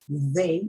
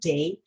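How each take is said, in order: First: It starts with the th sound of 'they'. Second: It starts with the th sound of 'thank'. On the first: The speaker calls it right. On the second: The speaker calls it wrong.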